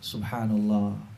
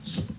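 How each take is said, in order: First: It is said slowly and calmly, every syllable clear. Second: It is rushed and clipped into one quick syllable.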